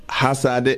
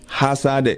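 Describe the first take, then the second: The two takes are said the same way.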